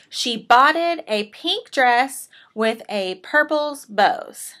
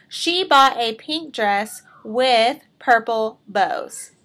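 First: Slow, careful "botted" read exactly as written; reading the mistake. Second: Slow, clear "bought" in the fixed sentence; corrected reading. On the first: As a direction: read "botted" and "a purple's bows" slowly, as the error sits on the page. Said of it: "Botted is not the correct way". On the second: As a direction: say "bought" and "purple bows" slowly, showing the fix. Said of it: "Sounds so much better". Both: Shown as a demonstration.

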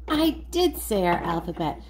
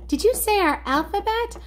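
First: DID leaned on, voice dropping lower; stress on DID. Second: Much higher, eager questioning voice; curious toy character. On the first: Host answers the toy about the alphabet, stress on DID. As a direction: confirm it with weight on "did". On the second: Toy friend asks about singing the alphabet, high excited question. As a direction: pipe up high, rising at the end. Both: Pretend.

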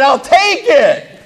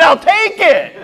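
First: High, drawn-out eager claim; slow eager I'll take it. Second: High, quick eager grab; eager I'll take it. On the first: To the farm owner, slowly claiming the zebra. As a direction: savor the offer, stretched out. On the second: To the farm owner, eagerly claiming the yak. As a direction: jump at the offer, excited. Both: Retold or imitated.

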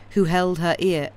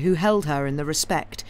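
First: Stumbling misreading; misread line. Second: Said in the usual way. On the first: Real, not acted. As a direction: slip on the words. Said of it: "who, sorry, who held her in the respect".

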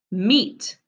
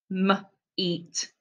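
First: Said in the usual way. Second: "M-, eat" with the M split off; sounded out. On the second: Shown as a demonstration. Teacher to pupils: "M-, eat" in two parts. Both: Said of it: "I'm gonna sound them out".

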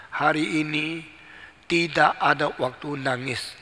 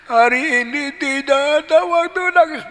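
First: Said in the usual way. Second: High, loud mock bawling; wailing child. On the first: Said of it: "Papanya mengatakan satu kalimat". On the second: Child repeats father's line, high mock wail. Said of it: "Nangis lagi".

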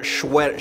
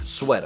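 First: "sweat" said as "shweat", with a sh sound at the start; mispronounced sweater. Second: "sweater" said with a clean s, no sh; corrected sweater. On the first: Correcting his own sweater-as-shweater slip, sh at the start. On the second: Correcting his own shweater slip, clean s. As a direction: say "sweater" properly with a plain s sound. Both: Shown as a demonstration. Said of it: "there's no H in sweater".

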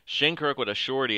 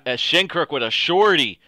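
First: Said in the usual way. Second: Loud, higher call of the goal; thrilled goal call at full voice; excited shout. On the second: Real, not acted. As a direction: yell the scorer's name like a play-by-play call. Calls the goal live.

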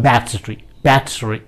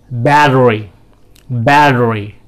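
First: "battery" with a crisp British T. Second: "battery" with the T flapped to D; American flapped T. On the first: Teacher contrasts British battery with crisp T. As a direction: hit the T hard in battery. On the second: Teacher models American battery for the class. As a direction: flap the T in battery. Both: Shown as a demonstration. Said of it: "या फिर British में होगा".

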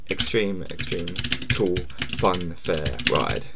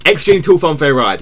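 First: Much lower, very slow trailer read; a streamer reading the game title as a trailer announcer; movie trailer voice. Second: Said in the usual way. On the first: Shown as a demonstration. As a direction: intone it like an epic movie trailer. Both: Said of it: "repeats title in a new voice".

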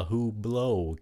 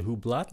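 First: "Hublot" slow, ending open, like "hoo-blow"; silent T. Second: "Hublot" with a sounded t, like "hoo-blat"; wrong pronunciation. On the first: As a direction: leave the t off "Hublot", end on o. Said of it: "Cái âm T là âm câm". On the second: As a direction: say "Hublot" ending in a hard t. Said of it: "không phải là". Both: Shown as a demonstration.

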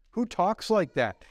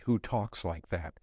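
First: Incredulous, emphatic mock question; scoffing disbelief. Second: Low, subdued, pondering question; sober reflection. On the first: Scoffer reacting to talk of kissing Christ, incredulous. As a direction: scoff at such strange talk. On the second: Real, not acted. Preacher turning the scoffer's question on believers, reflective.

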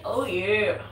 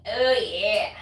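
First: Hammed-up mascot "Oh, yeah"; a lighter second go at the mascot cry; Kool-Aid Man. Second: Booming mascot "Oh, yeah"; a light take on the juice mascot's cry; Kool-Aid Man. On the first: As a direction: shout it like the cartoon pitcher. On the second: Retold or imitated. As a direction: bellow it like the pitcher bursting through a wall. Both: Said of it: "Like the Kool-Aid man".

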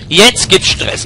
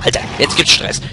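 First: "Jetzt" punched, louder and higher; fired up, shouting the threat; louder battle cry. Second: Said in the usual way. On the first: Real, not acted. Gamer taunts the rats, louder battle cry.

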